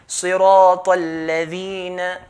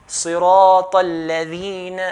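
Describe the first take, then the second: No difference in how they are said.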